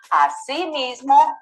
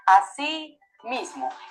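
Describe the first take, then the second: First: The two words run together, said more quickly. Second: The two words are said separately, more slowly. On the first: It means also or in addition. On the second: It means in the same way.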